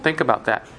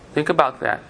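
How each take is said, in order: First: "Think" leaned on, the rest falling away; stress on think. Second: "about" made the peak of "Think about that"; stress on about. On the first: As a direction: push the word "Think", let "about that" drop. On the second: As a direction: land the weight on "about", not on "Think". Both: Shown as a demonstration.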